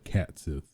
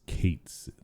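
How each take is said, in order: First: The first word rhymes with 'hat'. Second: The first word rhymes with 'gate'. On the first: This is the familiar fan pronunciation. "I always say cat" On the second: This is the officially confirmed pronunciation. "technically, according to Square, uh, the developers of the game, it is Kate Sith"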